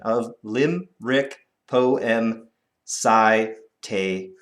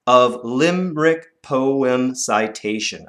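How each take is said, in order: First: Slow, even slower recital. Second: Slow, measured line; slow recital. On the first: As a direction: spell the syllables out slowly. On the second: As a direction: read it slowly for counting. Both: Shown as a demonstration. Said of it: "One, two".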